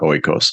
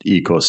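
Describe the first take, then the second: First: The first vowel sounds like 'oy'. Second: The first vowel sounds like 'ee'. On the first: The speaker calls it wrong. "not oikos" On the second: The speaker calls it right. "It's actually pronounced ekos"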